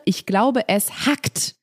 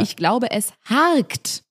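First: "hackt" with short, snapped vowel. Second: Slow, "harkt" stretched with an r; drawn-out harkt. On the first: Reading out troll comments to co-host, short-vowel "hackt". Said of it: "verwenden gern die Worte". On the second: Reading the misspelt troll version, drawn-out "harkt". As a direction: draw out "harkt" slowly, long a plus r. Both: Shown as a demonstration.

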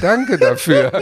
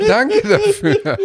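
First: Laughing through a thank-you. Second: Slow, high, laughing it out; high laughing thanks. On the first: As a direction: say it while laughing. Thanks after being talked round. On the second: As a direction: let the laugh take over the thanks. Repeated thanks with more laughter. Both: Real, not acted.

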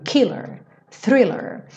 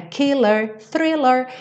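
First: Killer, thriller stressed on KIL and THRIL; first-syllable stress. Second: Killer, thriller with a lift on thriller; song rhythm. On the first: Teacher showing students normal stress, first syllable. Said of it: "a sílaba tônica é a primeira". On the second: Teacher showing students the song rhythm, lightly sung. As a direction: ride the beat of the song. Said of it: "Aqui tem um ritmo da música". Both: Shown as a demonstration.

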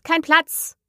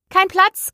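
First: Cry out, repeated. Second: High, loud cry of no room. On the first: Hare and hatter repeat their cry to Alice, a high echo. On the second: Hare and hatter call out to Alice, a high loud cry. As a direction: fling it out high and loud to shoo her off. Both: A narrator's reading. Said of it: "riefen sie aus".

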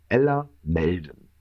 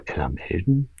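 First: "Ella Melden" slow and low, falling to a close; deliberate reveal. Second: "Ella Melden" low and soft, rising at the end; puzzled question. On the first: Telling the name she saved herself under, "Ella Melden" slow and falling. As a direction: state "Ella Melden" slowly as a lowered statement. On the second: Finding a strange contact next morning, "Ella Melden" as puzzled low question. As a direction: wonder "Ella Melden" to yourself with a questioning lift. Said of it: "denk so". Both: Retold or imitated.

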